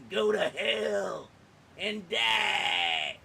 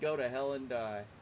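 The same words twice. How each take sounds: First: It is said with hateful, contemptuous anger. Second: It is said lightly, in a joking manner. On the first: The speaker truly despises them. "that's what a slur really sounds like" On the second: The speaker is only kidding around. "I might be making a joke"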